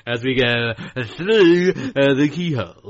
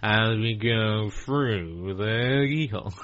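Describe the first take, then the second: First: Slow, drawn-out TV presenter voice; Lloyd Grossman voice. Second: Very slow, drawn-out presenter voice; Lloyd Grossman voice. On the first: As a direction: stretch each word like a host. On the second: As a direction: drag it out as if through a wind tunnel. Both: Retold or imitated. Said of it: "He had, like, a really slow".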